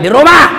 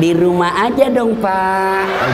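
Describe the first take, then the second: First: It is said in a firm, loud, blunt voice. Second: It is said in a soft, drawn-out, sultry voice.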